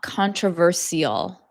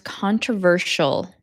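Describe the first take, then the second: First: The ending is not said as 'shul'. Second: The ending is said as 'shul'. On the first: The speaker calls it wrong. "not controversial" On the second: The speaker calls it right. "it's pronounced controversial, shul"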